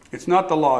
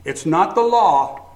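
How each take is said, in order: First: "not" punched, the rest light; stress on NOT. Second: "the" leaned on, slow and louder; stress on THE. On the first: Preacher stressing "not" before "it's me". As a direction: hit the word "not". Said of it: "It's not the law, it's the marriage to it". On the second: Preacher stressing "the" in "the law". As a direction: weigh "the law" heavily. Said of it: "It's not the law, it's me". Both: Shown as a demonstration.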